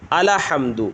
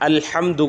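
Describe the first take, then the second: First: The L is followed by an 'a' vowel. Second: The L is said with no vowel after it. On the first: The speaker calls it wrong. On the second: The speaker calls it right.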